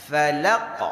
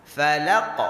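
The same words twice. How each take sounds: The two takes are said the same way.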